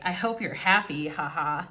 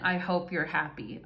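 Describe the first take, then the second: First: It sounds mocking and sarcastic. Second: It sounds warm and sincere.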